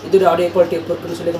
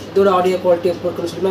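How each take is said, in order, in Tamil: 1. Fan சத்தம் noise கேன்சலேஷனால் லேசாகக் குறைக்கப்படுகிறது. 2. Fan சத்தம் நாய்ஸ் கேன்சலேஷனால் இன்னும் வலுவாகக் குறைக்கப்படுகிறது. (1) "first level of noise cancellation வந்து ஆன் ஆயிடுச்சு" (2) "second level of noise cancellation on பண்ணிட்டேன்"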